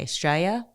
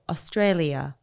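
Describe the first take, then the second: First: It is said in a broad Australian accent. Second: It is said in a careful British-style accent. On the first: "like most Australians will say Australia" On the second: "I had to sit there with a tape recorder and go"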